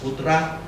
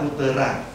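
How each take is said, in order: First: The p and t have no vowel between. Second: An extra vowel separates the p and t. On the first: "kembali pada istilah lama, putra" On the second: "Lalu dibuatlah putera"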